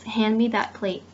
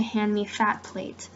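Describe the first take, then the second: First: Said in the usual way. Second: "fat" said with a clear f where "that" had th, slowly; th swapped for f. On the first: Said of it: "and I change it to". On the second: Shown as a demonstration. Teacher showing students a changed phoneme, "fat" with a slow, clear f. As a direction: say "fat" deliberately, f instead of th. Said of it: "I change the th sound to a th sound".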